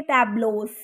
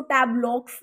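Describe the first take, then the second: First: टैब्लोस ending in "lohs", no K; silent x. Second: टैब्लॉक्स read as spelt, ending in "ks"; x sound pronounced. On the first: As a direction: end टैब्लोस on a long "o" and an S. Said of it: "इसकी pronunciation होती है". (टैब्लोस में "क" नहीं, अंत में "लोस") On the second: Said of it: "हमने इसको टैब्लॉक्स नहीं पढ़ना". (टैब्लॉक्स में आख़िरी "क्स" साफ़ बोलें) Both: Shown as a demonstration.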